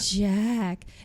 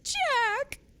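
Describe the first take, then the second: First: It is said breathily, in Lana's voice. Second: It is said in Chrissy's voice.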